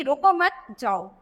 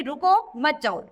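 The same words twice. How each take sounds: First: Slow, with रुको मत joined and जाओ held apart; pause after मत. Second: रुको on its own, then मत जाओ as one phrase; pause after रुको. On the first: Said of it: "अभी यहाँ पर अगर हम कह". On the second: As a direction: stop briefly after रुको before मत जाओ. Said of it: "इसका मतलब हम क्या कह रहे हैं". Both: Shown as a demonstration.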